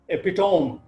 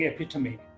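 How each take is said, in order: First: It is pronounced the way many local speakers say it. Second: It is pronounced the standard English way. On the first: The speaker calls it wrong. "many of our friends say" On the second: The speaker calls it right. "instead of saying"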